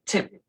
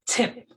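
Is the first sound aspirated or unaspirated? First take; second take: aspirated; aspirated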